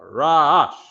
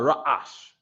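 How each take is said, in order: First: The word flows without cutting the breath. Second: The breath is cut in the middle. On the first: The speaker calls it right. "but ra'ash. ... we tend to not cut the breath" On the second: The speaker calls it wrong. "not ra'ash"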